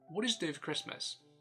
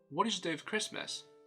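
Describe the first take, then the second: First: The word 'for' is weakened to a short reduced form. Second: The word 'for' is weakened to a short reduced form.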